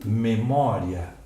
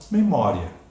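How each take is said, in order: First: The ending ria is split into two syllables. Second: The ending ria is said as one syllable. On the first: The final i is treated as a full vowel. "proparoxítona acidental" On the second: The final i is treated as a semivowel. "A leitura mais natural"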